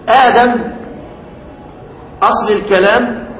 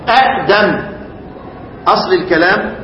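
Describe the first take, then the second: No difference in how they are said.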